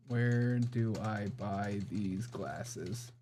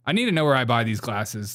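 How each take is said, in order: First: Very slow, softer, dictated to the phone; slow voice search. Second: Said in the usual way. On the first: Shown as a demonstration. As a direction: speak each word slowly for voice search. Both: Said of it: "Search for places".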